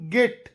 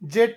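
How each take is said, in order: First: The word starts with a hard g sound. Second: The word starts with a j sound. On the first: The speaker calls it right. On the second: The speaker calls it wrong. "ಜೆಟ್ ಅಲ್ಲ"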